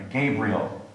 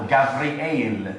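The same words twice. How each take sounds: First: Said in the usual way. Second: Gavriel said slowly, ga-vree-EL; Hebrew pronunciation. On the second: Shown as a demonstration. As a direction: say Gavriel the Hebrew way, with a v and three syllables. Hebrew name beside its English form.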